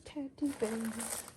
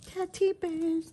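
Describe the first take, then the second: First: Softer repeat. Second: Excited naming. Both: Shown as a demonstration.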